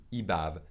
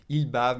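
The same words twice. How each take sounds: First: "Il bave" said as "i bave"; dropped l. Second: Said in the usual way. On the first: Shown as a demonstration. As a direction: drop the l of il in "Il bave". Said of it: "we say I". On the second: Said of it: "followed by a consonant, we say I".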